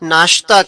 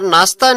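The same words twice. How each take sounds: First: The middle consonant is a 'sh' sound. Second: The middle consonant is an 's' sound. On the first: The speaker calls it right. "नाश्ता कहते हैं" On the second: The speaker calls it wrong. "नाश्ता नहीं"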